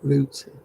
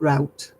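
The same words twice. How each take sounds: First: It is said in the speaker's own non-American way. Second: It is said in an American-sounding way. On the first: The speaker calls it right. "I pronounce it route" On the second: The speaker calls it wrong. "not route. No, route's American to me"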